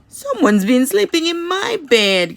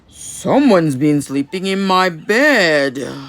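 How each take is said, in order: First: It is said as Mama Bear, gasping. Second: It is said in Papa Bear's deep, gruff voice.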